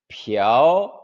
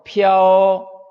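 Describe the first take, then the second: First: The pitch rises from middle to high. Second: The pitch stays high and level.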